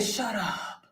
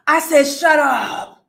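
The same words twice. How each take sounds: First: Low, soft "shut up"; hushed disbelief. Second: Loud, emphatic "shut up"; loud disbelief. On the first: Commentator reacting to the AI rumor, hushed disbelief. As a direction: say it under your breath, dropping away. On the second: Commentator repeating her reaction to the AI rumor, loud disbelief. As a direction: belt out the disbelief. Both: Retold or imitated.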